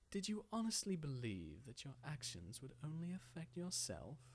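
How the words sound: The voice is light and sinister.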